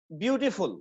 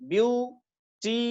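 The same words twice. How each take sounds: First: Said in the usual way. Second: "beautiful" slowly split into view, टी, फुल; three separate beats on "beautiful", pausing between; syllable by syllable. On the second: Shown as a demonstration. Teacher showing three syllables in "beautiful", slowly separated. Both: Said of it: "तीन syllable है".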